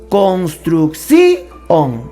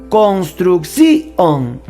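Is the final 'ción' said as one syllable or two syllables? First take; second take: two syllables; two syllables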